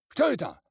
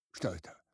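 First: High, loud «Что это?»; angry shout. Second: Said in the usual way. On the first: A narrator's reading. Village head to his constables, «Что это?» shouted high. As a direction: bark «Что это?» at them, much higher and louder.

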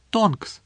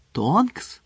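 First: "Тонкс" high at the start, then falling; falling announcement. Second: "Тонкс" raised, with a rising questioning tune; surprised question. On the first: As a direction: reveal "Тонкс" as the answer, falling tune. Гаррі називає, кого зустрів. («Тонкс» ствердно, зі спадним тоном) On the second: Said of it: "одночасно здивувалися Рон і Герміона". («Тонкс» здивовано, з висхідним тоном) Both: A narrator's reading.

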